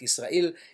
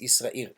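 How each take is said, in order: First: The word is said with an L sound. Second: The word is said without an L sound. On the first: The speaker calls it wrong. "So it's not Israel" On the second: The speaker calls it right. "the Egyptians did not pronounce the letter Lamed"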